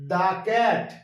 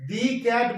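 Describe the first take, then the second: First: The word 'the' is said with a short 'uh'. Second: The word 'the' is said with a long 'ee'. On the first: The speaker calls it right. "আমরা করব দা cat" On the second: The speaker calls it wrong. "দি cat বলবো না"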